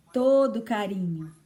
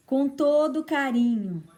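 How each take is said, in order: First: Said in the usual way. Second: "todo" lifted and leaned on; stress on todo. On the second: Shown as a demonstration. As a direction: push "todo" up in pitch.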